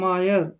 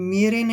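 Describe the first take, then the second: First: The first vowel sounds like 'eye'. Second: The first vowel sounds like 'ay'. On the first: The speaker calls it right. "इसको पढ़ेंगे मायर" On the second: The speaker calls it wrong. "मेरे नहीं है ये"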